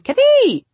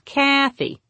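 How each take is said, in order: First: "Kathy" with a loud, high, stretched second syllable; stress on second syllable. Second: "Kathy" with the first syllable high and long, then falling; stress on first syllable. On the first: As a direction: shoot up and shout the THY in "Kathy". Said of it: "I always think it's on the second". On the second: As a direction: hit the KA in "Kathy". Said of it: "emphasis is on the first syllable". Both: Acted.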